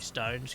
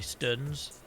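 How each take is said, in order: First: The vowel is a long 'oh' sound. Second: The vowel is a short 'uh' sound.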